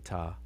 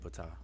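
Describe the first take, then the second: First: The word begins with no p sound. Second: The word begins with a p sound. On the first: "I hear people say it both ways" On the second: "I I say Ptah"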